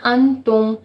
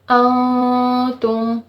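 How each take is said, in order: First: The n is pronounced as a clear n. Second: The n is hidden as a nasal sound. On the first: The speaker calls it wrong. "तो ये कतई गलत है" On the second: The speaker calls it right. "हम यहाँ पे गुन्ना इख्फ़ा करेंगे"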